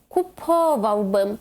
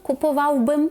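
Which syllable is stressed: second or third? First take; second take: second; third. First: The stress is on the second syllable. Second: The stress is on the third syllable. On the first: The speaker calls it right. "теж на третій склад з кінця" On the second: The speaker calls it wrong. "Nie chodziłbym, kupowałbym"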